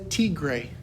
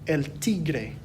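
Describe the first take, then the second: First: The R is plain, without a trill. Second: The R is rolled with a trill. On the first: "You can say tigre, that's okay too" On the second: "Notice there that I still use that little R roll"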